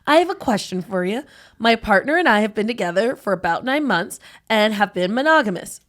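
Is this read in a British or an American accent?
American. It is read in her regular American accent.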